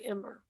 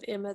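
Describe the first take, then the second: First: It ends with an added r, English-regional style. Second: It ends in a plain vowel, no r.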